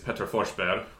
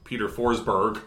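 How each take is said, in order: First: The name is said with a Swedish pronunciation. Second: The name is said with an English pronunciation.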